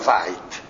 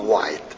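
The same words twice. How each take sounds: First: The name begins with a V sound. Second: The name begins with a W sound. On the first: "lo pronunciava la tedesca"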